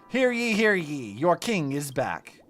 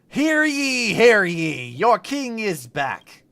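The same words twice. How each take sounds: First: It is said at normal volume. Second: It is said loudly.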